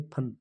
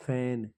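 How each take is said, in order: First: फन said with a short "a", the correct Persian-derived way; corrected फन with short vowel. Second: फैन said with a long open "ai" vowel, the wrong way. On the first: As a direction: say फन with a short clipped "a". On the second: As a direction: say फैन with the drawn "ai" sound. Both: Shown as a demonstration. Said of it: "फैन नहीं, फन".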